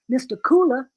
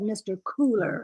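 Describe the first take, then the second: First: The final r sound is dropped. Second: The final r sound is clearly pronounced. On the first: The speaker calls it right. "I would have said mister Cooler, if anything" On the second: The speaker calls it wrong. "I would never have said mister Cooler"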